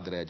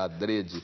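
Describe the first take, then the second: First: The stressed e vowel is open. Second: The stressed e vowel is closed. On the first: "Muita gente fala Adrede" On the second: "o Aurélio recomenda Adrede, a pronúncia fechada"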